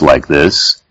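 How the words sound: It is said in a low, deep voice.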